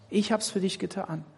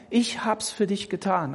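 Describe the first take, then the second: First: „Ich hab's für dich getan“ leiser und ruhig gesprochen; sanft, leise als Jesus. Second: Sanft als Jesus. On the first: (tröstend und leiser) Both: Pretend. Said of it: "also Jesus".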